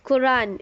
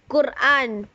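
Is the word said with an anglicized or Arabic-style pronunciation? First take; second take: anglicized; Arabic-style. First: The word is said in an anglicized way. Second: The word is said in an Arabic-style way. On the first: The speaker calls it wrong. "it's not pronounced Quran" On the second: The speaker calls it right. "it's Quran"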